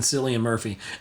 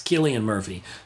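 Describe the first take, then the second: First: The first name begins with an S sound. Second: The first name begins with a K sound. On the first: The speaker calls it wrong. "I always said it wrong because I, I, I look at it phonetically" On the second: The speaker calls it right. "but it's Killian Murphy"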